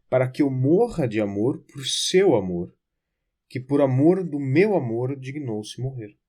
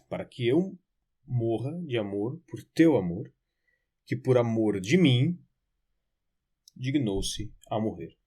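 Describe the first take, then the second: First: It is said at normal speed. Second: It is said slowly.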